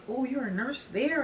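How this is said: It sounds impressed and admiring.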